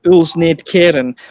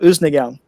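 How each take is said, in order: First: Every written sound of the name is pronounced. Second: Many sounds of the name are dropped. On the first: This is how the name looks when read. The speaker calls it wrong. "to us it would look like" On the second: This is how Danes actually say it. The speaker calls it right. "but they call it"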